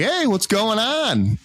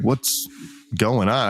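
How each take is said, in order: First: High, drawn-out friendly hail; casual call-out. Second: Mock angry. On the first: Retold or imitated. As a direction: call out slowly in a raised, sing-out pitch. Greets a stranger, contrasted with reply. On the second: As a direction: imitate a man holding back anger, pausing after "What's". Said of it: "I could tell he's angry".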